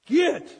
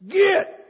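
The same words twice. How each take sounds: First: It is said at normal volume. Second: It is said much louder.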